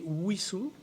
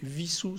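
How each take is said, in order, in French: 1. Le nom commence par un son W. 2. Le nom commence par un son V. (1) "devrait prononcer Wissou avec le W à l'anglaise" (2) "on ne devrait pas prononcer Vissou, c'est-à-dire avec le W à l'allemande"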